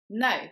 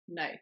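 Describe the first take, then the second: First: The word is said with more force. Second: The word is said with light force.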